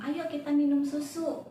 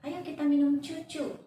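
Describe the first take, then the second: First: The word susu is pronounced clearly with s sounds. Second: The word is said babyishly, with c replacing s. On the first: The speaker calls it right. "harus jelas apa itu hmm, artikulasinya" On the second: The speaker calls it wrong. "tidak jadi, ... jangan dicantik-cantik"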